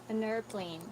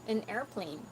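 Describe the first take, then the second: Both takes have the same delivery.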